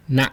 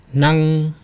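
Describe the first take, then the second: First: "na" very short, cut off; brief "na" with an abrupt stop; dot tone. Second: "Nang" held long on a high, level pitch; long, steady "Nang" like a note; flat tone. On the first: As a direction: close the throat quickly on "na". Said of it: "and then the dot". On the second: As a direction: sustain "Nang" evenly through the final nasal. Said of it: "with the flat tone first". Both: Shown as a demonstration.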